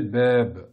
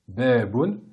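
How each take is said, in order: First: The word ends on a bare consonant. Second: The word ends with a final vowel and n. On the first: This is how the word is said when stopping on it. "on va le prononcer beb, comme s'il y avait un soukoun à la fin du mot" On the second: This is the full form read out for learning. "on va l'écrire comme cela"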